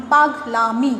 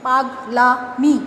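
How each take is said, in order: First: Said in the usual way. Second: পাগলামি stretched out very slowly, last sound held; slow demo. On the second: Shown as a demonstration. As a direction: draw পাগলামি out syllable by syllable. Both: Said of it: "পাগল যোগ আমি".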